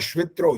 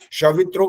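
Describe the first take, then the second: First: The sh sound runs straight into the v. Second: A full vowel separates the sh from the v. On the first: The speaker calls it right. "श आधा है" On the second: The speaker calls it wrong. "शवित्रो गलत हो जाता है"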